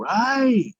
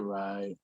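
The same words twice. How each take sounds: First: The word is said loud and energetic. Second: The word is said flat and monotone. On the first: "it just started turning into right" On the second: "I used to say right"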